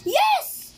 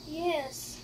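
First: It sounds angry. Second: It sounds sad.

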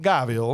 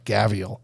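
First: It is said in a put-on British accent. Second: It is said in a plain, everyday accent.

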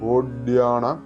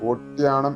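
First: The middle consonant is a voiced d sound. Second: The middle consonant is a voiceless t sound. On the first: The speaker calls it right. "ഓഡ്യാണം എന്ന് തന്നെ വരണം" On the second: The speaker calls it wrong. "ഓട്ട്യാണം എന്ന് ഉച്ചരിക്കരുത്"

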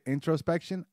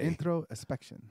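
First: It is said with a standard American accent. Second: It is said with a Puerto Rican accent. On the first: "I could say it introspection" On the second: "you were saying it like a Rican"

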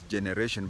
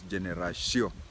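First: The word has an English pronunciation. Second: The word has a French pronunciation. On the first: "They write just the same as we write in English as generation" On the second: "but they pronounce as generation"

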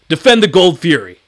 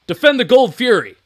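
First: The voice has audible room echo and reverberation. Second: The voice is dry with the echo suppressed. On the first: "We can hear all that reverberation" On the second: "with the software on, and hear how much it kills"

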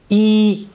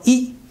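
First: The vowel is held long. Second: The vowel is cut short. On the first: "usi ka long hai e" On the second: "The short one was e"

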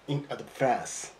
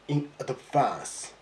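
First: It is said in a North American accent. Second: It is said in a British English accent. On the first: "in North American English accent" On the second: "in British English accent"

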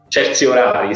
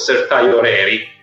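First: It is pronounced with an Italian accent. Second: It is pronounced with an American English accent. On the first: This is how Italians would say the term. "sì, lo diremmo" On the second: This is how the Americans say the term. "con una pronuncia naturalmente per noi latini mediterranei abbastanza bislacca, loro lo chiamano"

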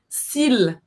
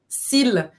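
First: The final L sound is clearly pronounced. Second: The final L sound is clearly pronounced.

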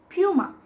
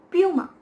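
Both takes have the same delivery.

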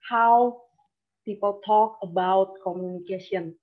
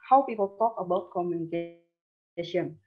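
First: The words are said with an exaggerated, wide-open mouth. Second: The words are said with relaxed, less open articulation. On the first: The speaker calls it wrong. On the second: The speaker calls it right.

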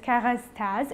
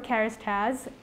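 First: The name is said with French sounds. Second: The name is said with English sounds. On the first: The speaker calls it right. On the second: The speaker calls it wrong.

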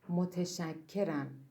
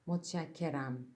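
First: The word is said in its full written form. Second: The word is said quickly in a reduced form. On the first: "yazıyoruz" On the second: "hızlı okuduğumuz zaman متشکرم diye okuyoruz"

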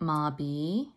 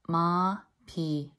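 First: The middle consonant has no puff of air. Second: The middle consonant has a slight puff of air. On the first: The speaker calls it wrong. "It's not mabi" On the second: The speaker calls it right. "Just a slight air is coming out of my mouth when I say that word"

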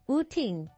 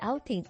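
First: The word begins with an 'oo' vowel sound. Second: The word begins with an 'ow' vowel sound. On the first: The speaker calls it wrong. "iyang mali-mali na pagka-pronounce ba pareha na uting" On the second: The speaker calls it right. "imbis outing"

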